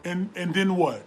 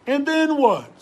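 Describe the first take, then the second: First: Said in the usual way. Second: And then what flung out higher and louder; challenging demand. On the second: Acted. Preacher to listeners, loud challenging question. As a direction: hurl the question at the crowd. Sermon hammering the point.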